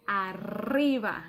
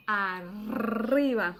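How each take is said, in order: First: Said in the usual way. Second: "arriba" with a long trilled double R, slow; "arriba" said slowly, tongue trilling the R; strong rolled R. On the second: Shown as a demonstration. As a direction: roll the R in "arriba" hard with lots of air. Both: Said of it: "your tongue has to vibrate".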